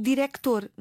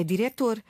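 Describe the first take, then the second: First: Director with a K sound before the T; C pronounced. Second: Diretor with no K sound before the T; C left out. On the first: Showing what she does not say, C sounded in "director". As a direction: say "director" with an audible C. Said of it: "mas eu não digo". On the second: Correcting to the new spelling, C dropped in "diretor". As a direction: say "diretor" with a silent C. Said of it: "Pois não, é diretor". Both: Shown as a demonstration.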